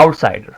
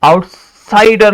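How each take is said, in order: First: Outsider said evenly, no punch on "sider"; easy, level outsider; unstressed, relaxed. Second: Outsider slow, with a loud punched "sider"; over-stressed second half of outsider; wrongly stressed. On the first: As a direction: say outsider without forcing the SI. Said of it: "So this is unstressed syllable". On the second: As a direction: hit the SI in outsider hard. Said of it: "आप पढ़ेंगे तो ये गलत हो जाएगा". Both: Shown as a demonstration.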